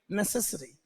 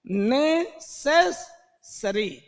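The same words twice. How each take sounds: First: Said in the usual way. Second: नेसेसरी drawn out with a long double s; slow stretched word. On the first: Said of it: "double एस की आवाज". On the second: Shown as a demonstration. Teacher models नेसेसरी slowly for spelling. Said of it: "double एस की आवाज आ जाएगी".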